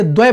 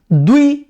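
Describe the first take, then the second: First: द्वय said as dvai; changed dvai form. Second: द्वि with a short i after dv; short i form. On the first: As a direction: open the vowel to ai in द्वय. (ऐ की ध्वनि के साथ द्वय) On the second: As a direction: say द्वि, not द्वय. (छोटी इ के साथ द्वि) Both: Shown as a demonstration. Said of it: "द्वि से द्वय बना देते हैं".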